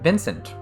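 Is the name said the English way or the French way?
English. It is said with plain English sounds. "we call him Vincent"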